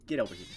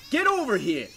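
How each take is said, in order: First: Said in the usual way. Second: Higher, louder shout; loud call. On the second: Real, not acted. Player shouts at the object they need. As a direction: shout it across the room.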